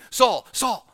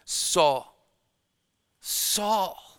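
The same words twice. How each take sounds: First: Loud, high, urgent double call of the name. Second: Pleading Saul, Saul with the second Saul pitched higher; a caring plea, not a command; compassionate urging. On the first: Shown as a demonstration. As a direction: call out Saul, Saul with urgency, raised pitch and volume. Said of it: "because something's urgent. You're talking quickly". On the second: Acted. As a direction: urge him gently and kindly. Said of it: "with a compassionate urging".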